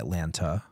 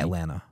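First: The second T is clearly pronounced. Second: The second T is dropped. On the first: The speaker is not from the city. "people not from Atlanta say Atlanta" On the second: The speaker is a local. "It's an at, and then you don't pronounce the other T"

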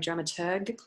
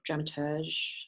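First: The final G is hard, as in 'go'. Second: The final G is soft, as in 'beige'. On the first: "it's a hard G" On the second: "or dramaturge"

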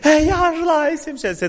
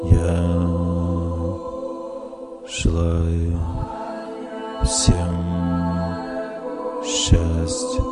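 First: It is said with strong emotion. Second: It is said calmly, like a prayer.

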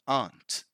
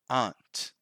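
First: The vowel is the long open 'ah' of 'father'. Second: The vowel is the long open 'ah' of 'father'.

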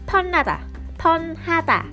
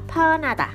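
First: The word is said slowly and carefully. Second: The word is said quickly.

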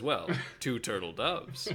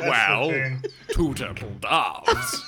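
First: It is said in the speaker's ordinary voice. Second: It is said in a put-on character voice.

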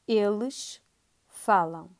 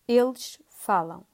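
First: It is said slowly. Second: It is said fast.

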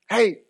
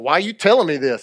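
First: It is said in a calm, simple tone. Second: It is said in a sassy, confrontational tone.

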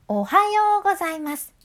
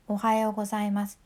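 First: The pitch jumps up sharply on the second sound. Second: The pitch stays mostly level across the word. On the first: The speaker calls it right. "歯をいつもよりぐっと上げるイメージやね" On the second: The speaker calls it wrong. "おはようございますじゃなくて"

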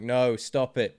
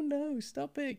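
First: It is said flatly, without expression. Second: It is said playfully, teasing.

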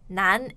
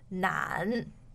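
First: The syllable rises steadily, short and light. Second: The syllable dips low, longer and heavier. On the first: "难 is the second tone. It's slightly shorter and lighter" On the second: "the third tone would sound like 难"

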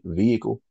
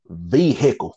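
First: The word is said smoothly as one unit. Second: The word is split like a compound of two parts. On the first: The speaker calls it right. "Notice how I said it" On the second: The speaker calls it wrong. "you saying this shit like it's a compound word"

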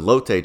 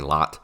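First: The name is not said like lot. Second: The name is said like the word lot. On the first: The speaker calls it right. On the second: The speaker calls it wrong.

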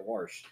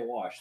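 First: Wash is said with an r sound, like warsh. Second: Wash is said without an r sound. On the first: "They say wash. ... they had an R in there" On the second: "They don't say wash"

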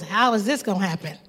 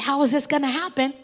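First: It is asked in a doubtful tone. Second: It is asked in trusting wonder.

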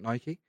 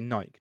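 First: The name is said the official brand way. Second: The name is said the common British way. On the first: This is how the brand says it should be said. "not Nike" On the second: This is how everyone in the UK says it. "In the UK, we say Nike"

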